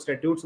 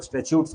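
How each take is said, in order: First: "statutes" said as STAT-yoots. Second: "statutes" said as STA-choots. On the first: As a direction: say "statutes" with a clear t before a y glide. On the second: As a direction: say "statutes" with the middle t softened to ch. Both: Shown as a demonstration. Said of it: "कुछ लोग statutes बोलते हैं".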